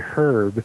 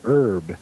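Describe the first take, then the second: First: The word begins with an audible H sound. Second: The word begins without any H sound. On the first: This is not how the British say it. "They don't say herb" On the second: This is how the British say it. "they say herb"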